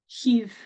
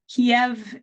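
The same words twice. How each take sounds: First: The name is said the Ukrainian way, 'Kyiv'. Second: The name is said the Russian way, 'Kiev'. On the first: The speaker calls it right. "Kiev is more of the closer to the Ukrainian pronunciation" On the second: The speaker calls it wrong. "not Kiev is the Russian pronunciation"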